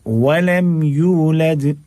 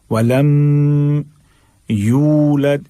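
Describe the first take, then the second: First: व लम यूलद recited with no hum on लम; slow, higher chant, यूलद's "yoo" held just enough; measured length. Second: व लम with a very long hummed M; faulty long hum on लम before यूलद; overstretched, wrongly. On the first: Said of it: "बस इतना पढ़ना है". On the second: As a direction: drag लम, then यूलद. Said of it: "दोनों गलत हो जाएगा". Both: Shown as a demonstration.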